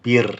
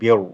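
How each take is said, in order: First: The r sound is light and thin. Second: The r sound is heavy and full. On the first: The speaker calls it right. "the ra assimilates a empty mouth ra" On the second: The speaker calls it wrong. "as opposed to"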